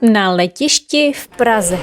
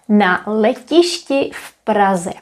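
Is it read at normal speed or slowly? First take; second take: normal speed; slowly. First: It is read at normal speed. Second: It is read slowly.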